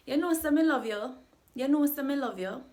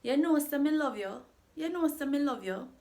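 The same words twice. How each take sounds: First: "You know, say" high and bright, then "Me love you" rising; higher, louder patois lilt on the phrase; rising question tune. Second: "You know, say me love you" high on "know", rising at the end; higher patois lilt on the common phrase; rising question tune. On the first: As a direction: sing the phrase up like a question that is not one. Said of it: "It sounds like a question". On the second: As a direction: ask it without really asking. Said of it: "this phrase is quite common". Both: Shown as a demonstration.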